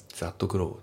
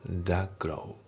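First: That grow with a full T on that. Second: That grow as "da grow", no T; T dropped. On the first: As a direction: sound the T in that. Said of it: "that growじゃなくて". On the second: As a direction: drop the T in that. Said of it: "Tが抜けますね". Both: Shown as a demonstration.

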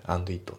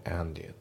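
First: And it as "ando ito", two words; and it said separately; unlinked. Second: And it run together as one; and it linked smoothly. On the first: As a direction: keep and and it apart. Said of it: "and itじゃなくて". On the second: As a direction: link the d into it. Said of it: "リンキングで". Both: Shown as a demonstration.

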